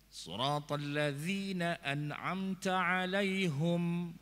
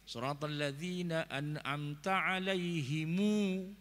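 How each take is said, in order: First: The word alaihim ends on a closed m. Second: The word alaihim ends with an added u vowel. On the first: This is the common reading. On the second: This is another valid reading.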